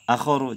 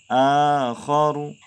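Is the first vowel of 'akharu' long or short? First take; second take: short; long. First: The first vowel is short. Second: The first vowel is long. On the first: The speaker calls it wrong. "Jangan akharu, jangan" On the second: The speaker calls it right. "a panjang"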